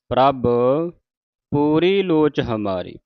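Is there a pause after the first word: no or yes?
yes. There is a pause after the first word. The speaker calls it right. "ਪ੍ਰਭ ਤੇ ਵਿਸਰਾਮ ਲਾ ਕੇ"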